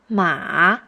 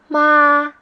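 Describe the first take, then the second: First: It is said with the third tone. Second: It is said with the first tone.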